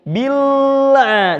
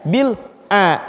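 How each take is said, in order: First: The two parts are joined without a break. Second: There is a break between the two parts. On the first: The speaker calls it right. "Bunyinya nyambung" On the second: The speaker calls it wrong. "jangan bil a, jangan putus ya"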